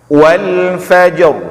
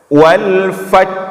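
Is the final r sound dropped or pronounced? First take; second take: pronounced; dropped. First: The final r sound is clearly pronounced. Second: The final r sound is dropped. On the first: Both letters are heard, keeping the meaning. The speaker calls it right. "nampak ra-nya" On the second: A letter is lost, so the meaning is lost. The speaker calls it wrong. "Jangan kita baca"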